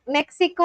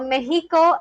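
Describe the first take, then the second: First: Mexico is pronounced with English sounds. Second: Mexico is pronounced with Spanish sounds.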